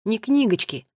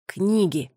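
First: «книгочки» echoed back as the wrong word; Tommy repeats her mistake to correct it; mocking the wrong word. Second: Firm correction: «Книги», plain standard stress; Tommy sets the word straight; correcting the word. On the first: Tommy correcting Nola's word, mildly teasing. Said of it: "Одна книга, две книги". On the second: Brother correcting Nola, firm. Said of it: "поправил её Томми". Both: A narrator's reading.

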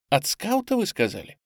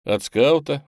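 First: От скаута leaps up high on скаута in disbelief; astonished question. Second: От скаута said with a smile, falling calmly on скаута; smiling reply. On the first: Boy asks back in disbelief, high rising скаута. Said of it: "мальчик изумлённо воззрился на меня". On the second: Narrator smiles as he confirms the boy's question, falling скаута. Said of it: "улыбнулся я". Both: A narrator's reading.

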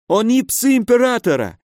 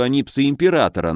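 First: High-pitched, frightened protest; panicked insistence. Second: Restrained, sceptical quote-back; frowning doubt. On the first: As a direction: insist desperately in a high pained voice. Injured baron pleads under threat. (испуганно, высоким умоляющим голосом) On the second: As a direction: repeat it with a frown, in an even voice. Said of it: "нахмурился я". (хмуро, с недоверием) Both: A narrator's reading.

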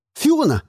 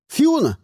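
First: Barked. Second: Sharp higher shout of a name; called out. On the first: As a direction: snap her name like an order. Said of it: "рявкнул я". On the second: Hero calling Fiona to help, higher shout. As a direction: call her across the fight. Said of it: "крикнул я". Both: A narrator's reading.

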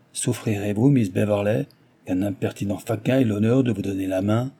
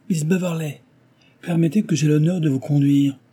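First: A lightly voiced reproach; reproachful. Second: Calling out over the crowd, a little higher; cried out. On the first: Chevalier reproaching Cecilia for taking Belfield's hand. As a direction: chide her, understated. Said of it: "comme par manière de reproche". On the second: Chevalier pushing through the crowd to Cecilia, calling out. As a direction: raise the voice to claim her arm. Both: A narrator's reading.

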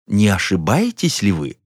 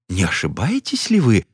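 First: Said in the usual way. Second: Honeyed voice. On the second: A narrator's reading. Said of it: "медовым голосом заметил".

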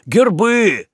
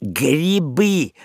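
First: "гербы" said instead of "грибы", stressed on the end; wrong word. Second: "Грибы" said clearly, stress on the last syllable; correcting. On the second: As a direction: correct him with a firm "Грибы". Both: A narrator's reading. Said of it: "подправил Лоцман".

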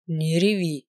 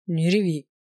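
First: A low, firm, strict order; stern. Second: Gruff grumble. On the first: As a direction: say it sternly, slowly. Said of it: "он ещё раз строго проговорил". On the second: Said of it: "буркнул Маркус". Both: A narrator's reading.

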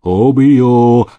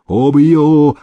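First: Louder furious threat; mean it, fist raised; threatening cry. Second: Loud furious yell, higher. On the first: Groom raising his fist at the housekeeper. Поднял кулак Митька. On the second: Groom yelling after the fleeing housekeeper. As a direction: roar the threat after her. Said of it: "орал конюх". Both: Acted.

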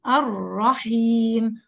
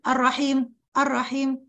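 First: الرحيم said very slowly with the doubled ra held long. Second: الرحيم with the doubled ra shortened to a single ra; rushed ra. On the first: Teacher models the correct timing of the doubled ra. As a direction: give the shadda its full time. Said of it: "فين زمن الراء الأولى". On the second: Teacher shows the wrong, hurried reading. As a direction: clip the shadda short. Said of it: "ما أقرأش الرحيم". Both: Shown as a demonstration.

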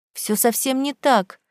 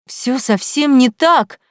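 First: Said in the usual way. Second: Slow, loud despairing cry; desperate cry. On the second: A narrator's reading. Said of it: "в отчаянии крикнула Вера".

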